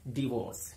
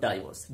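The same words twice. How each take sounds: First: डिवोर्स with a short "di", "di-VORCE"; correct pronunciation. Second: डाइवोर्स with a long "die", "DIE-vorce"; the usual "DIE-vorce" for डाइवोर्स; wrong pronunciation. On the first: Teacher models डिवोर्स for viewers as "di-VORCE". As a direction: say डिवोर्स as "di-VORCE", not "DIE-vorce". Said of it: "correct pronunciation है डिवोर्स". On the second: Teacher shows viewers the wrong डाइवोर्स, "DIE-vorce". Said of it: "not डाइवोर्स". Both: Shown as a demonstration.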